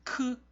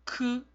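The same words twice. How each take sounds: First: The k sound is crisp and clean. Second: The same.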